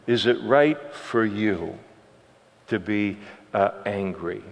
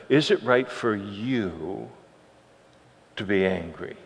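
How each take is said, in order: First: Softer, calm question from God; gentle reasoning. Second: Much softer, slowed question; gentle question. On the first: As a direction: reason kindly with an angry prophet. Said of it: "the Lord tries to reason with him, and it's beautiful". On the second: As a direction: let the question land quietly. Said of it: "the Lord tries to reason with him". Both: Retold or imitated.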